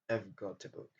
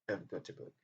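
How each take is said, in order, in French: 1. I've se réduit à un son schwa rapide. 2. I've se réduit à un son schwa rapide.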